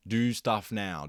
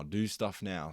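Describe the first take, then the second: First: Louder, punchy order to himself: "Do stuff now"; emphatic self-command. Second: Said in the usual way. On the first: Real, not acted. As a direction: bark "Do stuff now" like a pep talk. Self-pep talk, first take loud.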